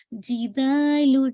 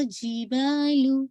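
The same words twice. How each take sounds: First: جِبَالُ with firm ج and long ا; right jeem. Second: جِبَالُ with air escaping on ج; wrong airy jeem. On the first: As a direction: say جِبَالُ slowly, ج without air. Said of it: "not جِبَالُ". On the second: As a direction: show the faulty جِبَالُ. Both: Shown as a demonstration.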